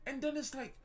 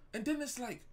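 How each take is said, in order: Both takes have the same delivery.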